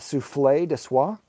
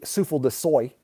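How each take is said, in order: First: The last word sounds like 'swah'. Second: The last word sounds like 'soy'. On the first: The speaker calls it right. "Is that how you pronounce it?" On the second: The speaker calls it wrong. "It could be souffle de soy. Pretty sure it's not though"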